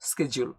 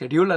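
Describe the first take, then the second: First: The word begins with an sk sound. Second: The word begins with an sh sound. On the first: The speaker calls it right. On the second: The speaker calls it wrong.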